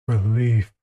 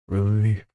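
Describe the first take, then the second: The two takes are said the same way.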